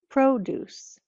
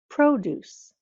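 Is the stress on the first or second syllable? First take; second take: first; first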